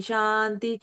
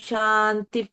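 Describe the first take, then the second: Both takes have the same delivery.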